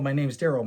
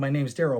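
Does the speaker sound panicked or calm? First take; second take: panicked; panicked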